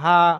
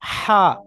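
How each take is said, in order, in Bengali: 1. হালকা, সহজ একটি h ধ্বনি, শ্বাস সহজে বের হয়। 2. কর্কশ, জোর দেওয়া h ধ্বনি, যা ভেতর থেকে ঠেলে বের করতে হয়। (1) "ওইভাবে আমাদের এই ছোট হাটা উচ্চারণ করতে হবে" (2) "বড় হাটা ... একটু কষ্টকর আওয়াজ হয়, মানে ভিতর থেকে আওয়াজ আওয়াজটা বের করতে হয়"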